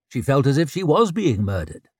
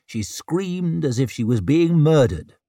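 First: "was" lifted out as the emphatic word; stress on was. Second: Said in the usual way. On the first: A narrator's reading. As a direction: lean hard on "was". Repeat stresses that it truly was.

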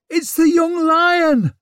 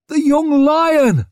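First: High loud crowd shout; calling out. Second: High, loud crowd cheer; cheering shout. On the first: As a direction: cry out to the crowd. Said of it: "someone called". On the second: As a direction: cheer him on wildly. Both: A narrator's reading.

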